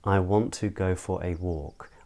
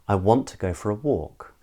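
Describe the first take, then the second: First: Every syllable gets equal stress and time. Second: Only two words are stressed; the rest are reduced. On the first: "I speak almost stressing every single syllable" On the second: "is a bit quicker, um, because there are only two stressed words"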